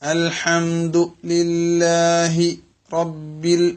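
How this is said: The words are broken apart by a pause. The speaker calls it wrong.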